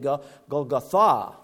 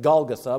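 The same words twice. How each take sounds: First: The stress falls on the last syllable. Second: The stress falls before the last syllable. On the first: The speaker calls it right. "the accent is really on the last syllable of this word" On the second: The speaker calls it wrong. "I'm used to saying Golgotha"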